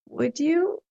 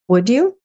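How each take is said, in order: First: It sounds hesitant yet hopeful for the best. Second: It sounds like a plain, neutral question.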